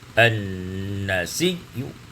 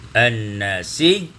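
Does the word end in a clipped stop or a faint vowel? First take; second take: faint vowel; clipped stop. First: A faint, partial 'u' vowel sounds at the end. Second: The final letter ends fully silent, with no vowel. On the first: "kita baca dengan rum. Sepertiga harkat" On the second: "tiga wajah yaitu sukun"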